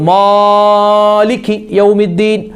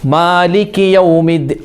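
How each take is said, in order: First: The long vowels are stretched out excessively. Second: The long vowels are held a moderate length. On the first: The speaker calls it wrong. "ചില ആളുകൾ നീട്ടും" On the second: The speaker calls it right. "അങ്ങനെയല്ല ഒരു ഒരു ഒരു മധ്യമായ"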